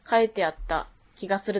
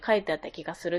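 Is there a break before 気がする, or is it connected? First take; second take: break; connected. First: There is a break before the last phrase. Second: It runs on smoothly without any break. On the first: "切れてなくて" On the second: "つなげとったの"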